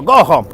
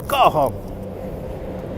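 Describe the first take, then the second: First: Said in the usual way. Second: Whispered go home. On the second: Pretend. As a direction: whisper it to the snow. Telling snow to go.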